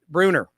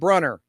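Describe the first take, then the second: First: The first vowel is an 'oo' sound. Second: The first vowel is not an 'oo' sound. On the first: The speaker calls it right. "with a U sound" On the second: The speaker calls it wrong. "not Brunner"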